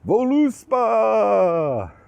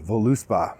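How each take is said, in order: First: The name is shouted loudly. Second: The name is said at normal volume.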